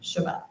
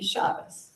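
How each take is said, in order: First: It is said in non-Ashkenazi pronunciation. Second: It is said in Ashkenazi pronunciation. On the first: "rather than"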